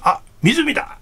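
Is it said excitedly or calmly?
excitedly. It is an excited, abrupt exclamation.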